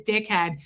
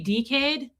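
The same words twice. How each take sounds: First: Said in the usual way. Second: "dickhead" in an Australian accent, first vowel lengthened to "dee". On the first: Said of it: "whose accent is dickhead". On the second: Shown as a demonstration. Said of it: "that's Australian".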